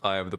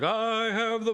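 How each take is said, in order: First: The phrase is said calmly, without screaming. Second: The phrase is screamed loudly. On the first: "but he just" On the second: "He doesn't even scream it like"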